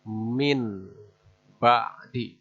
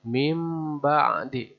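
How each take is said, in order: First: The nasal before ba'di sounds like n. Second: The nasal before ba'di sounds like m. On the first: The speaker calls it wrong. "bukan min, min ba'di, bukan begitu" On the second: The speaker calls it right. "Jadi mim ba'di"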